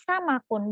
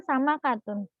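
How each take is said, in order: First: "sama kun" ending straight in -kun; read without ta. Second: "sama katun" keeping the "ta" before -tun's end; wrong reading with ta. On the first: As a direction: say "sama kun" with the ta syllable dropped. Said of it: "dibacanya sama kun". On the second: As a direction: say "sama katun" with the extra ta syllable. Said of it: "bukan sama katun". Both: Shown as a demonstration.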